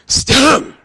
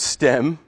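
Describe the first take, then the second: First: A harsh throat-clearing H sound follows the S. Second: No H sound is heard at all. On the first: "Or are you clearing your throat?" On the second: "So just pronounce stem"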